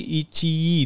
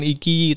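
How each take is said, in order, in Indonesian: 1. Konsonan tengahnya bunyi ch. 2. Konsonan tengahnya bunyi k yang keras. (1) "tapi Ichi dibacanya" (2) "bukan Iki"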